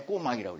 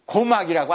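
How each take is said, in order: First: 꼬막 with a tense, hard kk; 꼬막 with a stiff tense consonant. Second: 고막 said with a lax g; wrong plain g. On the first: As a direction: say 꼬막 with a tense double k. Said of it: "꼬막이라고 그러지". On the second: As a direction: say 고막 lax, not tense. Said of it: "고막이라고 안 해". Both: Shown as a demonstration.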